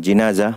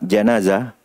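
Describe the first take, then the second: First: The first vowel is a front 'i' sound. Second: The first vowel is an open 'a' sound. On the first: It refers to the bier carrying the body. "jika dibaca dengan kasrah" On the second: It refers to the dead body. "bila dibaca dengan fathah"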